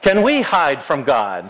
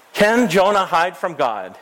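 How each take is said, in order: First: Slow question with "we" leaned on; stress on we. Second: "Jonah" stressed, falling away to the end. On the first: Pastor turns the question on the children, stress on "we". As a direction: draw out and stress "we", then fall. Same question turned on the listeners. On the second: Pastor quizzes children about Jonah hiding, stress on "Jonah". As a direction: lean on "Jonah" in the question. Question repeated with a new subject. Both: Shown as a demonstration.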